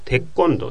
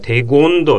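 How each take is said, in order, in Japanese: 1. 2番目の音節は tense k の音で始まります。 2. 2番目の音節は soft g の音で始まります。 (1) "だから、テッコンドというふうに発音しますね" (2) "テゴンドって発音したくなるんだけど"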